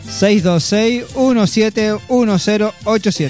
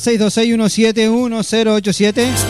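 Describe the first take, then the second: First: The number is said more slowly. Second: The number is said at normal speed.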